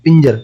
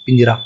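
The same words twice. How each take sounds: First: पिंजर said short, ending on the bare consonant र with no final vowel; पिंजर as the form people don't say; wrong form. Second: पिंजरा said with the full open आ at the end; पिंजरा as the word people really say; everyday form. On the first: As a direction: clip पिंजर off after the र. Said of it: "पिंजर नहीं बोलते". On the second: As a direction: finish पिंजरा on a clear long आ. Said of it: "पिंजरा बोलते हैं हम लोग". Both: Shown as a demonstration.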